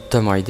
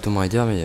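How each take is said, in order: First: 'Tomb' is pronounced like the name 'Tom'. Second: 'Tomb' is pronounced differently from 'Tom'. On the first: The speaker calls it wrong. "je risque d'appeler ce jeu Tomb Raider" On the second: The speaker calls it right. "alors que je sais que c'est Tomb Raider"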